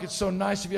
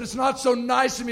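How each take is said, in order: First: Said in the usual way. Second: Insistent rebuttal. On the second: Retold or imitated. Passenger correcting flight attendant, insistent rebuttal. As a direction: push back on the praise, pitch lifted.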